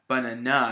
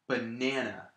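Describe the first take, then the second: First: The stress is on the last syllable. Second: The stress is on the middle syllable. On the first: The speaker calls it wrong. "if I put the stress on the last syllable" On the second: The speaker calls it right. "I'm putting the stress on the middle syllable"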